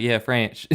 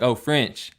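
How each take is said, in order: First: French said "Franch" in imitated Tennessee twang; mimicked Tennessee wife's "Franch"; wife's Tennessee accent. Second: Said in the usual way. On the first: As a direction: confirm it in a Tennessee accent, French rhyming with ranch. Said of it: "And she's like". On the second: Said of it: "She's like".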